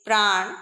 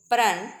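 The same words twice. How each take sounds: First: प्राण said loud, with the "aa" held longer; long "aa" vowel. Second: प्रण said loud, with a brief inherent "a"; short "a" vowel. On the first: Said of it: "इससे थोड़ा अधिक समय लगता है". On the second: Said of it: "ए के उच्चारण में कम समय लगता है". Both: Shown as a demonstration.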